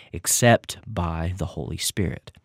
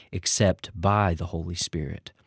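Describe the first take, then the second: The two takes are said the same way.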